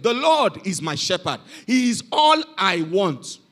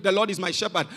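First: Put-on elderly man's recitation. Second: Lightly voiced rote recital, low and soft; boy's recitation. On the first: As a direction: let each phrase of the psalm settle. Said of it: "they called an elderly man". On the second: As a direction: recite the psalm quietly, without weight. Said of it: "he came up, he recited".

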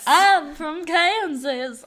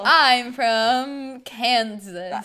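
First: High, loud, slow Southern-belle twang; exaggerated country Kansas drawl; mock Kansas accent. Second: Loud, very slow declaiming; big corny stage-heroine delivery; stage Dorothy. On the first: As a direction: drag it out in a fake Southern accent. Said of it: "I don't think they talk like that". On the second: Acted. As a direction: stretch every word, hammed-up. Mock improvising as Dorothy.

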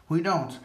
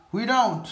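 First: Said in the usual way. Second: Angry emphasis. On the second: Real, not acted.

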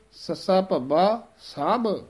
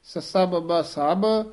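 First: ਸਭ said slowly with a heavy breathy ਭ; aspirated bh in ਸਭ. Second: Said in the usual way. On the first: Shown as a demonstration. Teacher contrasting ਬ and ਭ in ਸਭ for students. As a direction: stretch ਸਭ, weighting the ਭ. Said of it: "ਭੱਬਾ ਜਿਹੜਾ ਹੈ". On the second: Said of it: "ਸਭ ਨਹੀਂ ਕਹਿ ਦੇਣਾ ਹੈ".

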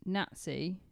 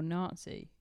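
First: "Nazi" said as NAT-see; short A in Nazi. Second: "Nazi" said as NAHT-see; long A in Nazi. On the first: Co-host asking which is right, "Nazi" as NAT-see. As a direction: say "Nazi" with a short, flat first A. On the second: Co-host offering the alternative, "Nazi" as NAHT-see. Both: Shown as a demonstration. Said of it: "Do you say".

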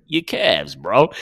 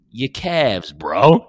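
First: Drama's delivery quoted. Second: Drama's deadpan delivery. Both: Retold or imitated. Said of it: "I just love the delivery of".

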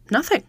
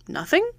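First: NOTHING as a short, higher-pitched answer; answering statement. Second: NOTHING much higher, sharply rising into a question; incredulous question. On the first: Client answers Holmes's question, short statement of NOTHING. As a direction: say NOTHING as a reply, not a challenge. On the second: Holmes questions the client's answer, incredulous rising NOTHING. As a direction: echo NOTHING as a disbelieving question. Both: A narrator's reading.

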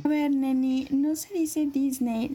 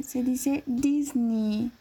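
First: DISNEY said as the wrong Spanish way, slowly; condescending fresa girl rejecting "Disney"; slow, prissy setup naming the wrong "Disney"; super fresa correction. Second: DISNEY stretched very slowly in affected English; very drawn-out, prissy "Disney"; super fresa pronunciation. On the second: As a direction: fresa girl teaching "Disney" syllable by syllable. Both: Retold or imitated. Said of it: "pero súper fresa".

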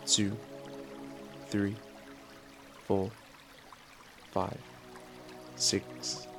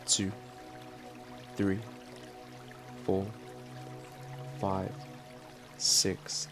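The two takes are said the same way.

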